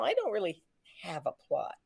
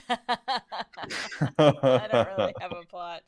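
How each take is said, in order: First: Soft, trailing admission; sheepish confession. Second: Slow, laughing quote. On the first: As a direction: confess it quietly. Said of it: "go to Bob and say". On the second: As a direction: repeat it through laughter. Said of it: "quoting with a laugh". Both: Retold or imitated.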